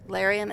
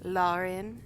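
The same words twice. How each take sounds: First: The name is pronounced the American way. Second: The name is pronounced a non-American way. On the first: "as us Americans say" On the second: "as Neil says"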